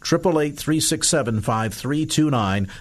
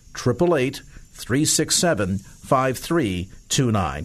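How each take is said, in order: First: The number is said at normal speed. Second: The number is said slowly.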